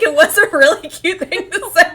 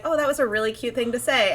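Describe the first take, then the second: First: High, loud delighted insistence; loud and thrilled, fully sincere; gushing agreement. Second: Said in the usual way. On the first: Real, not acted. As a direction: burst out agreeing, pitched way up. Own emphatic agreement with the quote.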